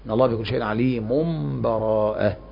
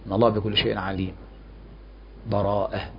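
First: The last word runs on without any pause before it. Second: A full stop with a breath comes before the last word. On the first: "والوصل" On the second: "أما الوقف فيكون مع النفس"

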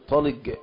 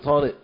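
First: The final consonant is a hard g sound. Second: The final consonant is a glottal stop. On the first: "طالق بالجيم" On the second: "أنت طالق بالهمزة"

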